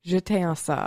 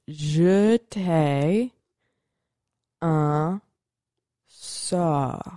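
First: It is said a bit faster. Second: It is said slowly.

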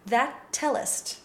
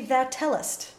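First: The first T is stopped before the next T. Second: The first T is not stopped at all. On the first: The speaker calls it right. "You stop the sound, which builds up the air to make the following T more plosive" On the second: The speaker calls it wrong. "It can't be"

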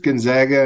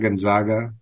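First: The middle syllable sounds like 'zag'. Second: The middle syllable sounds like 'zog'.

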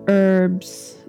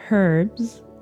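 First: It is said with an American accent. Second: It is said with a British accent.

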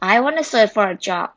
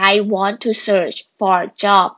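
First: 'Want to' is reduced to 'wanna'. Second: 'Want to' is said as two full words.

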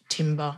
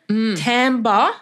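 First: The word is said as its letters suggest. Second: The word is not said as its letters suggest. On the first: The speaker calls it wrong. "not timbre, as it's written" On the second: The speaker calls it right. "referring to the tone or quality of an instrument or voice"

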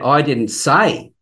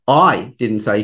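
First: The stress falls on the word say. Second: The stress falls on the word I. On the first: The speaker may have written it instead of saying it. "then it could be that I actually wrote it" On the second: Someone else may have said it. "it means that somebody else may have"

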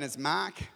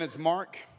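First: Mark is said in an Australian accent. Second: Mark is said in an American accent.

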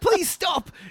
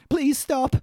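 First: It has a stronger, more convincing Australian accent. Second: It has a weak, unconvincing Australian accent.

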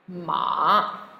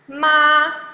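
First: The pitch dips low and comes back up. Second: The pitch stays high and level. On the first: "third tone. Remember, the dipping tone" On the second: "first tone, remember, blue and flat like the sky"

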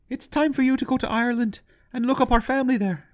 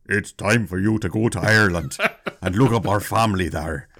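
First: It is said in a high Irish woman's voice. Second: It is said in a deep Irish woman's voice.

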